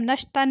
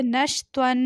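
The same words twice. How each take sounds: First: "नशतन" with a light, thin T; wrong plain T. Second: "नशत्वन" with a full, heavy त्वा and held ending; correct heavy Twa. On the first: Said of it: "हम नशतन नहीं पढ़ेंगे". ("नशतन" हल्की, बारीक त के साथ) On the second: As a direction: say "नशत्वन" with the thick emphatic T, drawing out the final n. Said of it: "बल्कि पढ़ेंगे नशत्वन". ("नशत्वन" मोटे त्वा के साथ) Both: Shown as a demonstration.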